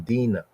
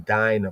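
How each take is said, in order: First: The name is said the original, non-English way. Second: The name is said the English way. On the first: "but actually Dina" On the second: "In English, they say Dinah"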